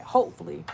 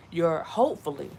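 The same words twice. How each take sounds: First: Hopefully said again a bit louder with a falling tune; stress on hopefully. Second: Said in the usual way. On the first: Shown as a demonstration. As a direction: lean on the word hopefully. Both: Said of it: "let me say that".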